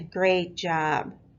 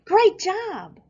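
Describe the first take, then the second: First: It is said in a sarcastic, mocking tone. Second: It is said in an excited, enthusiastic tone. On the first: The praise means the opposite. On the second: The praise is sincere. "all excited"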